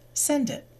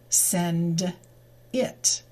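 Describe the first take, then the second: First: The d sound runs smoothly into it. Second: The two words are said separately, unlinked. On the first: The speaker calls it right. "the D sound moves to the I, and the real pronunciation becomes" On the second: The speaker calls it wrong. "that's not natural English"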